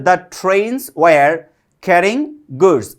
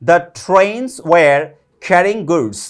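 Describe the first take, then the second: No difference in how they are said.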